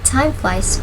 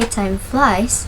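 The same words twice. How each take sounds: First: The stress is on the word time. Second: The stress is on the word flies. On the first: It refers to a type of insect. "with the stress on time" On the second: Time is passing quickly. "I mean flies"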